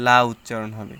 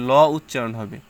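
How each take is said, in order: First: "লা" with an open a vowel; light lam. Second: "ল" with a rounded o vowel; heavy lam. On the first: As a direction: make "লা" thin and open. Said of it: "যদি জের থাকে". (পাতলা করে "লা" উচ্চারণ) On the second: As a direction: make "ল" dark and full. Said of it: "জবর বা পেশ থাকে". (মোটা করে "ল" উচ্চারণ) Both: Shown as a demonstration.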